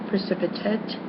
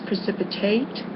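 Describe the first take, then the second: First: It is pronounced the way the adjective is. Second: It is pronounced the way the verb is. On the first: It describes a quality. "is an adjective" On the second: It names the act of causing something. "that's a verb"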